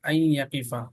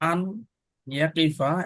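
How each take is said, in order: First: The n is dropped and the y is doubled. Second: The n sound is clearly pronounced before y.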